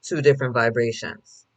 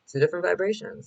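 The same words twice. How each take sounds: First: Said in the usual way. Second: Higher lifted repeat. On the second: Shown as a demonstration.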